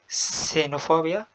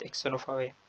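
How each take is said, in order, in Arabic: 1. الكلمة تبدأ بصوت s عادي. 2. الكلمة تبدأ بصوت ks. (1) "سينوفوبيا وليست اكسينوفوبيا" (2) "es un gran error"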